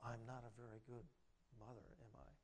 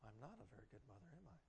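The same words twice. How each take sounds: First: Soft, low, insinuating whisper of doubt; enemy's suggestion. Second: Quick, soft, defeated murmur; Linda's self-doubt. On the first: The enemy whispering doubt into Linda's ear, soft and low. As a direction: plant the doubt quietly and low. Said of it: "he's suggesting to Linda". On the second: Linda sitting with her daughter trouble, quick deflated murmur. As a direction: say it fast and low like she believes it. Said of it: "she sits there and says". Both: Retold or imitated.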